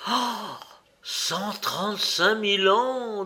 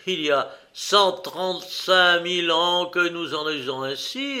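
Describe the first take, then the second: First: High, amused gasp of disbelief; incredulous echo. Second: Raised, insistent declaration of the figure; emphatic assertion. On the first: Indian doubting the Egyptian's boast, incredulous. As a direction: draw out the number in mocking astonishment. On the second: Egyptian boasting of ancient custom, emphatic. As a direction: state the huge number with full assurance. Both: A narrator's reading.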